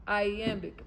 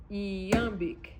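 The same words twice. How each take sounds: First: "Iambic" opening with an EYE sound; English-style pronunciation. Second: "Iambic" opening with a long EE glide; Greek-style pronunciation. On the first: Teacher trying the English term, opened with an eye sound. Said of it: "iambic is not even iambic". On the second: Teacher offering the Greek form, opened with a long ee. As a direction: say "Iambic" as ee-AM-bic, drawn out. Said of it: "Or iambic". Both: Shown as a demonstration.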